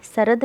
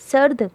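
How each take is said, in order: First: सरद in two syllables, "sa-rad"; full r with its vowel in सरद; wrong full-vowel reading. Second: सर्द as one syllable, "sard"; no vowel after r in सर्द; half-sounded r. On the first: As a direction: put a short vowel between r and d in सरद. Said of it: "सरद नहीं हुआ". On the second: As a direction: run r straight into d in सर्द. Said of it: "रे की आधी आवाज़ आई". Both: Shown as a demonstration.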